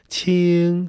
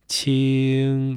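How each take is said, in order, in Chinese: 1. 这个音是高平。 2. 这个音是中平。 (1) "其实它应该念第1 调是青" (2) "因为它要变调的关系"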